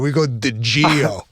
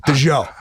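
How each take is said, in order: First: "Di Gio" given an Italian flourish, slow; Midwest Di Gio. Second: "Di Gio" said the way the Southern friend says it. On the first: Shown as a demonstration. Showing his friends the Midwest way to say the cologne, slow Italian-style "Di Gio". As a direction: pop an Italian lilt onto "Di Gio". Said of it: "the way we set it up in the Midwest". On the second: Retold or imitated. Teasing his friend's pronunciation of the cologne, Southern-style "Di Gio". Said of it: "that's a Southern way of saying it".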